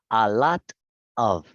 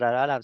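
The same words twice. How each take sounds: First: Each word is said clearly, with the final F. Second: The words run together fast, sounding like "loro." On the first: "estas tres palabras se pronuncian a lot of, con la F" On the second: "mientras más rápido lo está haciendo ... se me vuelve el oro"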